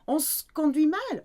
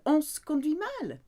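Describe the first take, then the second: No difference in how they are said.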